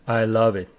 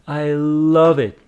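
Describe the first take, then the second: First: It is said flatly, with no feeling. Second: It is said expressively, with lively intonation. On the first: The speaker calls it wrong. "you cannot just simply say I love it. It doesn't convey any message or any emotion with it" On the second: The speaker calls it right. "So you should say I love it"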